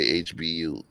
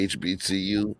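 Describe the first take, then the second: First: The letter C is left out entirely. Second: All four letters are said, including C. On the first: "she'll just say H B U" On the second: "When she's gonna say H B C U"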